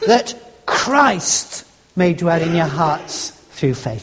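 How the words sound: The word Christ carries the stress. It is nothing else but this one person. "In other words, nothing else but Christ"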